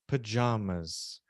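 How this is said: It is said with a British pronunciation. "the British say pajamas"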